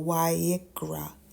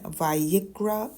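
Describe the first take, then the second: First: The word begins with a W sound. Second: The word begins with a V sound. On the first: "or a W" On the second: "it can be pronounced as a V"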